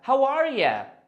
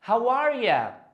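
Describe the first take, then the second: First: The last word is reduced to a quick 'ya'. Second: The last word is reduced to a quick 'ya'.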